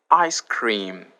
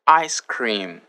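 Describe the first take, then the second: No difference in how they are said.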